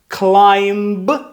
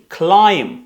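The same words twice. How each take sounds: First: A b sound is heard at the end. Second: The word ends on the m sound. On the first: The speaker calls it wrong. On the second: The speaker calls it right.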